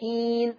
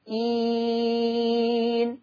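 First: The vowel is held for two counts. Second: The vowel is held for four counts. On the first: "يبقى إين حركتين" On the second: "إين 4"

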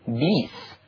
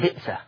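First: The glottal stop is replaced by a long vowel. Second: A glottal stop is pronounced in the word.

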